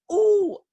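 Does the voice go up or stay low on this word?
up. The pitch goes up high. "whether we go up like"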